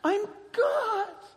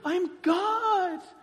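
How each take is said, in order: First: It is said forcefully, with conviction. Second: It is said forcefully, with conviction.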